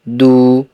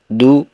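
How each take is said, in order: First: The vowel after the d is long. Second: The vowel after the d is short. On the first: "agar dibaca panjang" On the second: "dal yang dibaca pendek"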